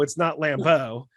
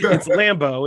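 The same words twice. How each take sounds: First: "Lambeau" with a fancy French stress on the end, lam-BEAU; a mock-fancy French "Lambeau". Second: "Lambeau" said plainly, stress on the first syllable LAM; correct Lambeau. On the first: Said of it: "It's not French and fancy". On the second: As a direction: say "Lambeau" the right way, LAM-beau. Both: Shown as a demonstration.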